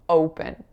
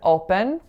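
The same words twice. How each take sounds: First: The O vowel glides as a diphthong. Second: The O vowel stays steady without gliding. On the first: The speaker calls it right. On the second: The speaker calls it wrong.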